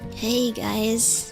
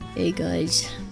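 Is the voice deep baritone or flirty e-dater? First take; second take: flirty e-dater; deep baritone. First: It is said in a flirty e-dater voice. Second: It is said in a deep baritone voice.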